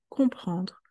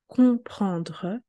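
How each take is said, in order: First: The word is said at normal speed. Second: The word is said slowly. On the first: "Normal speed, à vitesse normale" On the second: "I will read another time slowly"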